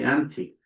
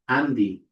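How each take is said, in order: First: The consonant after n is a t sound. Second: The consonant after n is a d sound. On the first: The speaker calls it wrong. "we don't actually say anti" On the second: The speaker calls it right. "We say Andy"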